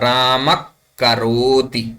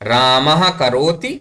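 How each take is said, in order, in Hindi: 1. पहला शब्द मृदु k-ध्वनि से समाप्त होता है। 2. पहला शब्द श्वास वाले h से समाप्त होता है।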